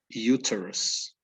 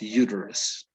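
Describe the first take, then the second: First: The t is a clear t sound. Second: The t sounds like a soft d. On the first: "in British English, in the U K, right, this word would be read uterus" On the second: "In U S English... is as the T would be turned into a D"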